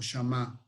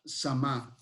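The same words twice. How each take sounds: First: "Shamá" with a soft sh sound; pronounced with sh. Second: "Samá" with a plain s sound; pronounced with s. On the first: Offering the other form of the city's name, pronounced with sh. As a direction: say "Shamá" opening on sh, stressed at the end. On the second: Reading the city's name from Ezequiel, pronounced with s. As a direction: say "Samá" opening on s, stressed at the end. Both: Shown as a demonstration. Two alternative pronunciations of name.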